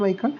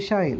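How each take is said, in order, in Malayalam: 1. ഈ പേര് ഇംഗ്ലീഷ് രീതിയിലാണ് ഉച്ചരിക്കുന്നത്. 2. ഈ പേര് ജർമ്മൻ രീതിയിലാണ് ഉച്ചരിക്കുന്നത്. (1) "ഇംഗ്ലീഷിലാണ് മൈക്കിൾ" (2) "ജർമ്മനിലാണ് മിഷായേൽ"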